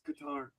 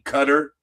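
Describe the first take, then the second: First: The name does not sound like cutter. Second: The name sounds like the word cutter. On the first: The speaker calls it right. "It's Qatar" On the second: The speaker calls it wrong. "they were saying Cutter"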